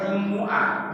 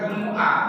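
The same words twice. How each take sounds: First: The m is followed by a u vowel. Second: The m is followed by an a vowel. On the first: This is how the people of Hijaz say it. "ada yang baca Jumat itu dengan domah mimnya" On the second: This is how the Tamim tribe says it. "minnya dikasih harokat fathah"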